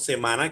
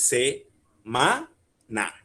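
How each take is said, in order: First: Said in the usual way. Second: "se-ma-na" said slowly, a clear pause between each syllable; split into syllables. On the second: Shown as a demonstration. Teacher splitting the word for the class, slowly syllable by syllable. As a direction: spell out "se-ma-na" beat by beat, slow and even. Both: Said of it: "Dividamos la palabra en sílabas".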